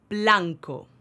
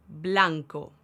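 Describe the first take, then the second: No difference in how they are said.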